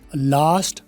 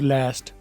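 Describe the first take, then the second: First: It is said in a British accent. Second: It is said in an American accent.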